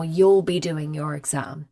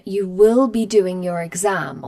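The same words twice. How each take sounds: First: "You'll" run together as one syllable, a little lower; contracted you'll. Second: Said in the usual way. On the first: Shown as a demonstration. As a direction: squeeze "You'll be" into one quick beat.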